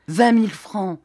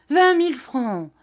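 First: "vingt mille francs" loud, stress on "vingt"; "vingt mille francs" said loud with a hard "vingt"; indignant repeat. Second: "vingt mille francs" jumping much higher, shrieking falling end; "vingt mille francs" repeated far higher with a falling end; outraged repeat. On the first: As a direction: punch "vingt" in outrage. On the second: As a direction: pitch the repeat way up in disbelief. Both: A narrator's reading. Repeats the sum twice, rising.

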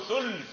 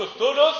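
First: ثلث as thulth, no vowel after l; one closed syllable for ثلث, l straight into th; sukun on lam. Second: الثلث as ath-thuluth, u after l; two high syllables in الثلث, thu-luth; damma on lam. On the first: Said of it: "أو بإسكانها". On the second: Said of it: "في الثلثان والثلث". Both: Shown as a demonstration.

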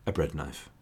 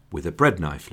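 First: "a bread knife" dropped much softer, lower, flat and dry; deadpan aside. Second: Said in the usual way. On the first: Real, not acted. Narrator lowers his voice to repeat the gruesome bread knife, softly deadpan. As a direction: let it land quietly, grimly amused. Repeats the grisly detail for effect.

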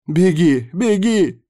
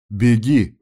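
First: High, loud, gleeful urging; joyful yell. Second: Firm, louder command to run; confident urging. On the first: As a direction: cheer the runner on like a zealot. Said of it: "радостно завопил сектант". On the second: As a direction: send the child off with certainty. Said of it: "уверенно произнёс Серебров". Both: A narrator's reading.

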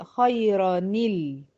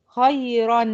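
First: Slow "خيرا نيل" as khayrani-l; measured, drawn-out "خيرا نيل" joined by ni; kasra link. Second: "خيرا" louder, as khayran; careful, emphatic "خيرا" ending on a still n; demonstrating tanween. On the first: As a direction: turn the n into ni and land on l in "خيرا نيل". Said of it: "فهتتنطق". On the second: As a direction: ring out the final n of "خيرا". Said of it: "التنوين لاحظت إن أنا نطقت إيه؟". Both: Shown as a demonstration.

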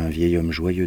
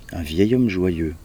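First: Said in the usual way. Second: "Un vieil homme joyeux" drawn out slowly and louder; sceptical echo. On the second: A narrator's reading. Soothsayer echoes Zarathustra's words, sceptical and drawn-out. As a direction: throw "Un vieil homme joyeux" back, stretched and emphatic.

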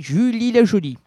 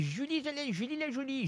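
First: High, loud put-on voice; bold announced name. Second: Tiny, high, soft put-on voice; Julie/character. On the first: Host proclaims his guest's name in the bar scene, high loud voice. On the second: Host plays his guest naming herself in the bar, high soft voice. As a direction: introduce yourself in a hushed high voice. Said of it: "Vous êtes Julie".

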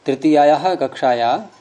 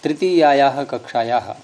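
First: कक्षाया ending on an open long "aa"; final visarga dropped. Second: कक्षायाः ending in an echoed "ha"; final visarga kept. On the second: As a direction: say कक्षायाः as "kakshaya-ha". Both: Shown as a demonstration. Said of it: "कक्षायाः न होकर के ये कक्षाया बनेगा".

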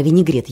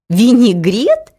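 First: Said in the usual way. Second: «Винегрет?» drawn out slowly, higher and louder, rising; disbelieving. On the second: A narrator's reading. Лариска doubting her ears, «Винегрет?» slow and disbelieving. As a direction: stretch «Винегрет?» into an incredulous question. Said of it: "не поверила своим ушам".

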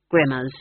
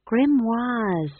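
First: "Grimmers" with two short syllables, like "grimmer"; homely, anglicised "Grimmers" at usual pitch; mispronounced grimoires. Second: "Grimoires" high, with a long "wah" second syllable; high-voiced, drawn-out "Grimoires"; corrected pronunciation. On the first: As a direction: say "Grimmers" to rhyme with trimmers. Old witch mangles the word. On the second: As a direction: correct it to "Grimoires", French-style "-wahz". Young witch corrects the word. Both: A narrator's reading.

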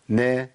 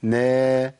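First: نا said as a short single-beat نَ; one beat. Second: نا stretched a little into a long naa; lengthened vowel. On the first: Teacher demonstrating vowel timing, a short one-beat syllable. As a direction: keep نا brief, one count only. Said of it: "مقدارها حركة واحدة". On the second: Teacher showing it slipping into madd, lengthened syllable. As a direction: hold نا past one beat. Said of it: "لو زودتها شوية". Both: Shown as a demonstration.

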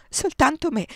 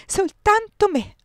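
First: Desperate plea. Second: Higher, louder, slow soltanto me; drawn-out anguished repeat. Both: A narrator's reading. Repeated frantic plea.

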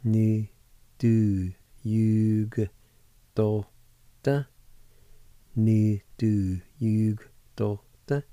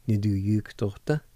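First: Niðurjúkdóttir drawn out very slowly, syllable by syllable; slow pronunciation. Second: Said in the usual way. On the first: Shown as a demonstration. Teacher to students learning Cherokee, very slow and careful. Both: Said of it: "you can pronounce the G with the Y U like this".

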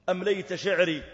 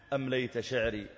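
First: Higher, louder plea in the verse; emotional outcry. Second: Said in the usual way. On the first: Acted. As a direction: lift the voice in anguish. (صيحة متأثرة)

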